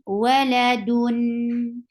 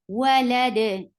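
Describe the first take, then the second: First: The word ends with a nasal 'un' sound. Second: The word stops on a bouncing 'd' sound. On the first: The reader continues without stopping. "Give the wasut um, because you are pronouncing tanween" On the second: The reader stops at this word. "You will give sukoon at the end, and dal with sukoon will get sifa of qalqala"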